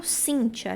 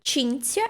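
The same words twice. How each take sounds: First: "Cíntia" said SIN-chia, s at the start; Portuguese name sound. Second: "Cinzia" said CHIN-tsia; Italian name sound. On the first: Teacher gives Portuguese equivalent, native pronunciation. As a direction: begin "Cíntia" with s. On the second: Teacher compares with Portuguese, Italian pronunciation. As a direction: begin "Cinzia" with ch. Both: Shown as a demonstration. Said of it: "corresponderia em português".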